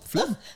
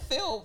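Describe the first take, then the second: First: The L sound comes before the vowel. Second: The L sound comes after the vowel.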